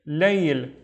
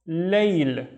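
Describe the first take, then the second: The two takes are said the same way.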